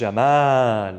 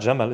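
First: The vowel is drawn out long. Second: The vowel is said short, not extended. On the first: The speaker calls it right. "it's Jamal" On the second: The speaker calls it wrong. "it's not Jamal"

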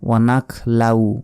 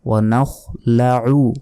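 First: A plain k sound comes before la. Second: A raspy kh sound comes before la. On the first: The speaker calls it wrong. "অনেকে বলি ওয়ানাক লাউ ... এখানেও একটা ভুল গেল" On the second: The speaker calls it right. "বলতে হবে ওয়ানাখ"

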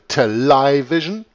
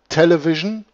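First: It is said with an English pronunciation and stress. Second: It is said with a German pronunciation.

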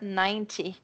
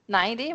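First: The middle consonant is a clear t. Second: The middle consonant sounds like a soft d. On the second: "with a D sound"

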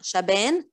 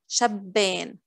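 First: The b sound is short and single. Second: The b sound is doubled and held. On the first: The speaker calls it wrong. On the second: The speaker calls it right.

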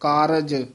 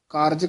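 First: The 'r' is followed by a full vowel. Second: The 'r' joins the 'j' with no vowel. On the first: The speaker calls it right. "ਰਾਰਾ ਪੂਰਾ ਲਾਉਣਾ ਹੈ" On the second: The speaker calls it wrong. "ਹੇਠਾਂ ਰਾਲਾ ਲੱਗ ਜੂਗਾ"

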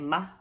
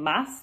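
First: The final s is aspirated, nearly dropped. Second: The final s is fully pronounced. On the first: "They also aspirate their S's" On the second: "instead of saying mas"

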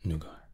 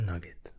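First: The word is said like noo-gah. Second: The word is said like nug-it. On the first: "now depending on your pronunciation" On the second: "For me, we'll say Nugget going forward"

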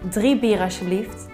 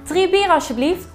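First: It is said at a low, relaxed pitch. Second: It is said at a high, strained pitch. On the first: The speaker calls it right. "Neem juist een lagere toonhoogte voor wat meer ontspanning" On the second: The speaker calls it wrong. "komt er een druk op de keel"

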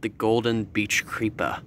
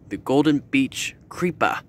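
First: It is said in a plain, neutral accent. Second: It is said in a New York-style accent.

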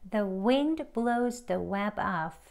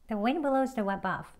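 First: It is said slowly and carefully, word by word. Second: It is said faster, with the words run together. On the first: "책 발음으로" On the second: "대화 발음으로 조금 빠른 속도로"

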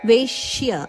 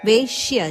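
No difference in how they are said.

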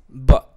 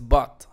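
First: The final T is nearly silent, cut off. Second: The final T is clearly released. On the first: The speaker calls it right. "es but ... normalmente ellos no pronuncian la T porque es un sonido de glotis" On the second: The speaker calls it wrong. "El but no es but"

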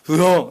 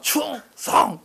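First: The shout is slurred, with its sounds dropped. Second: The shout is loud, crisp and fully pronounced. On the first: A long-serving soldier salutes out of habit. "나중에 되면 으엉! 이렇게 하게 되거든요. 이게 빠져가지고 이렇게 돼요" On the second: A new recruit salutes with full effort. "처음에는 진짜 열심히 합니다"

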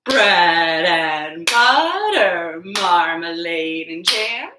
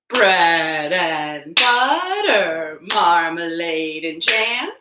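The two takes are said the same way.

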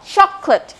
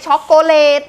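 First: The second syllable has a reduced schwa vowel. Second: The second syllable has a full clear vowel. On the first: The speaker calls it right. "ในพยางค์ที่สอง" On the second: The speaker calls it wrong. "ไม่ใช่ช็อกโกแลต"

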